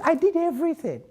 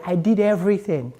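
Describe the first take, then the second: First: "I did everything" thrown up high in exasperation; exasperated cry. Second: Said in the usual way. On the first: Retold or imitated. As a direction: push "did" up high, fed up. Climax of list of efforts.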